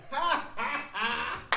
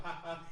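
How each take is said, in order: First: A higher, mock "Ha, ha, ha"; my own laugh. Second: A lightly voiced, soft "Ha, ha"; Brother Tony laugh. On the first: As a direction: show off your own laugh, pitched up. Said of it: "Then I got the". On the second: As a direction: imitate the friend's laugh, softer. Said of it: "you got the Tony laugh, like".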